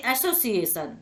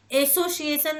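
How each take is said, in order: First: एसोसिएशन starting on an open "a", as in "cat"; English pronunciation. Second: एसोसिएशन starting on a closed "ay"; spelling pronunciation. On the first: Teacher giving the spoken form, open "ae" opening on एसोसिएशन. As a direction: open the first vowel of एसोसिएशन. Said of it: "लेकिन इसे एक्ट बोलते हैं". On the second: Teacher showing what not to say, closed "ay" opening on एसोसिएशन. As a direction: say एसोसिएशन with letter-name A at the start, pitched higher. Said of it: "नहीं". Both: Shown as a demonstration.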